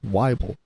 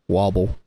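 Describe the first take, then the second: First: The first syllable rhymes with Bible. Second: The first vowel does not rhyme with Bible. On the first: The speaker calls it right. "but it's Weibel. ... it's like Bible" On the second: The speaker calls it wrong. "I've had my last name pronounced wrong"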